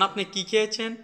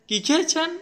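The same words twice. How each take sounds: First: Raised pitch, easy question on কি খেয়েছেন; gently lifted কি খেয়েছেন question; first questioning tone. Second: খেয়েছেন pushed very high and louder; high-pitched, pressing খেয়েছেন; changed questioning tone. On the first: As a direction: ask কি খেয়েছেন lightly, a bit high. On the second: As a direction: fire off কি খেয়েছেন as an incredulous question. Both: Shown as a demonstration. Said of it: "দুইটা দুইভাবে করা হয়েছে".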